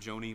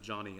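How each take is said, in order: First: The first vowel sounds like the vowel in 'go'. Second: The first vowel sounds like the vowel in 'John'. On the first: This is the common way people say the name. The speaker calls it wrong. "You may have pronounced it Joni" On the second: This is how the name's owner says it. The speaker calls it right. "apparently she pronounces it Johnny"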